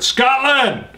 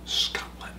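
First: The word is said loudly and with excitement. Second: The word is said quietly, almost whispered.

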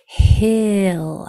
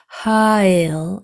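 First: The H is only breathy air before the vowel. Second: The H is voiced, with an extra 'ha' vowel. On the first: The speaker calls it right. "that H only has air" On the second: The speaker calls it wrong. "It can't have any voice. It's not ha"

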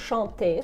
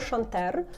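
First: The word ends in a vowel, no r. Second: The word ends with an audible r sound. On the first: The speaker calls it right. "просто «шанте»" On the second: The speaker calls it wrong. "Я не читаю «шантер»"

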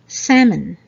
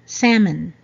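Both takes have the same delivery.

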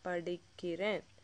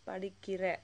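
First: The word ends with an n sound. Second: The word ends without an n sound. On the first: The speaker is talking about themselves. The speaker calls it right. "it usually ends with that na sound" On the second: The speaker is addressing someone else. The speaker calls it wrong. "not padikire"

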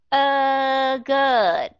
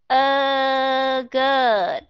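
Both takes have the same delivery.

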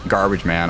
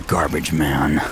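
First: It is said in a normal speaking voice. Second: It is said in a dramatic put-on voice.

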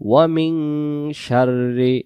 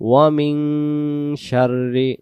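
Both takes have the same delivery.

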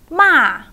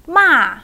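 First: The pitch falls sharply from high to low. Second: The pitch falls sharply from high to low.

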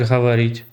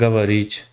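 First: The word begins with a soft h-like sound. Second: The word begins with a hard g sound. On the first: This is how the local speakers actually say it. "А так говоріть. ... ви ж гакаєте" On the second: This is how a Russian speaker says it. "Були б ви русською, казали б говоріть"

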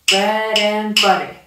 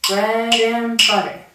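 No difference in how they are said.

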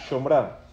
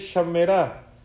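First: The first vowel is an o, in two syllables. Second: The first vowel is an a, in three syllables. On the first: "la palabra Shomrav se dice así" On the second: "no se dice Shomra, se dice Shamera"

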